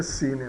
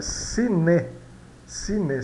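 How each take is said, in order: First: "cine" said as "cini"; low-key "cine" with a soft I at the end; Portuguese final I. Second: "cine" as ci-ne, ending in a clear closed E; Spanish final E. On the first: Teacher showing the Portuguese habit, final I. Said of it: "às vezes a gente pronuncia". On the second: Teacher correcting the Portuguese habit, Spanish final E. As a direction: model "cine" with E, not I, at the end. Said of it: "do espanhol não". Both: Shown as a demonstration.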